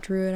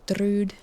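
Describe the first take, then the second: First: Said in the usual way. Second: "druid" in a mock Scottish or Irish accent, squeezed into one syllable, "thrud"; silly accent. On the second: Shown as a demonstration. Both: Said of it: "I wanna say".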